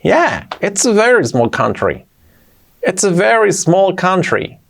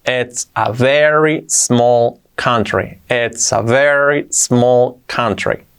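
First: "it's a very small country" higher, flowing, falling at the end; lively connected "it's a very small country"; with intonation. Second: "It's a very small country" drawn out word by word; very slow teaching delivery of "It's a very small country"; slow model. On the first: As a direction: lift the tune high, then glide down on "country". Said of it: "Y entonando". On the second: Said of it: "Así sería". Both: Shown as a demonstration.

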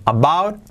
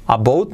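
First: "about" with an open ow glide, rising; correct "about". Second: "about" as "a-boot"; mispronounced "about". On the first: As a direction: say "about" with a full ow. ("about" bien dicho, con au) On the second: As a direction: say "about" wrongly, with an oo vowel. ("about" mal dicho, con u) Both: Shown as a demonstration. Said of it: "about, no".

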